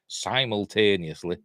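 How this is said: It is said with an American pronunciation. "I say it the American way"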